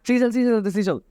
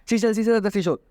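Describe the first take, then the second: No difference in how they are said.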